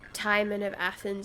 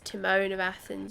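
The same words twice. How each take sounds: First: Timon is not said like the cartoon meerkat's name. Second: Timon is said like the cartoon meerkat's name. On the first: The speaker calls it right. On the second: The speaker calls it wrong.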